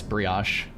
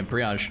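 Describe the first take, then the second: First: Brioche with a crisp sh ending, bree-ahsh; trying Brioche with sh instead of zh. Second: Brioche ending in a buzzing zh sound; brioche said again. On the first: Streamer trying the corrected brioche for chat, sh ending. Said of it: "that's fair, I guess". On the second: Streamer repeating brioche for chat, ending in zh. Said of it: "Can you say brioche again". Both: Shown as a demonstration.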